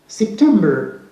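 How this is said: It ends with an r sound after the schwa. "But in American English, we say"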